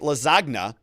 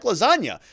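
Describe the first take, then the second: First: The G in the word is sounded. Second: The G in the word is silent. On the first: The speaker calls it wrong. "You don't say lasagna" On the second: The speaker calls it right. "It's like lasagna"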